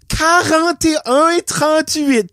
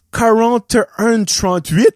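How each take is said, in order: First: Quarante et un trente-huit drawn out slowly and higher, mock teacher; condescending mock. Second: Said in the usual way. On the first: Old lady repeating the price to the clerk, slow condescending mock. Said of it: "t'aurais probablement ri de elle comme". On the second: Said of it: "si elle aurait été capable de le dire en français".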